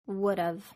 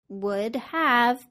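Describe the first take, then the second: First: Have is reduced and joined to would. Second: Have is said in full.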